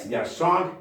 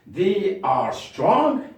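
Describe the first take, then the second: First: Said in the usual way. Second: They are strong, drawn out slowly; slow model read; slow dictation. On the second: Shown as a demonstration. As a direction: say it slowly for pupils to copy. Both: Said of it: "modelling sentence".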